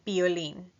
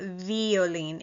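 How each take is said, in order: First: The word begins with a B sound. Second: The word begins with a V sound. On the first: The speaker calls it right. "The letter V in Spanish is pronounced like a B" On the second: The speaker calls it wrong. "It's not violin"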